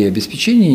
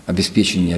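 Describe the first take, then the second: First: "обеспечения" stressed on ЧЕ; stress variant. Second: "обеспечения" stressed on ПЕ; stress variant. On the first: Linguist accepts both variants, stress on ЧЕ in "обеспечения". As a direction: stress the fourth syllable of "обеспечения". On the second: Linguist accepts both variants, stress on ПЕ in "обеспечения". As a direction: stress the third syllable of "обеспечения". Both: Shown as a demonstration. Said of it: "Оба варианта".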